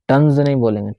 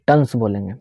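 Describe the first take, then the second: First: टन्स ending in a buzzing z sound, the wrong way; buzzed s. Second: टन्स ending in a clean hissing s, no z; hissed s. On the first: Teacher showing students the ending to avoid, buzzed. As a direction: say टन्स with a z at the end. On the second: Teacher giving students the correct hissed ending. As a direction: end टन्स on a sharp hiss. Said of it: "ज नहीं बोलेंगे, हिस्ड sound देंगे". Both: Shown as a demonstration.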